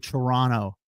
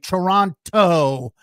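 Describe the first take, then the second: First: The second T is dropped and silent. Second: The second T is clearly pronounced. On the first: The speaker calls it right. "you don't say the second T in Toronto. You say Toronto" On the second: The speaker calls it wrong. "You don't say Toronto, as Lauren on the sideline was doing tonight"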